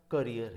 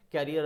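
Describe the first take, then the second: First: "करियर" as kuh-REER; correct "करियर". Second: "कैरियर" as KA-ri-er, first syllable stressed; carrier "कैरियर". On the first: Teacher contrasting this word with carrier, correct pronunciation. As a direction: stress the second syllable of "करियर". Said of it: "but ये वाला". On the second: Teacher separating the bicycle word, carrier pronunciation. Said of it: "कैरियर अलग से होता है". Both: Shown as a demonstration.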